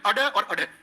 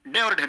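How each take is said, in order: First: The consonants are quick tongue flaps. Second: The consonants are plain stops. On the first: The speaker calls it right. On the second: The speaker calls it wrong. "डे और ढे नहीं"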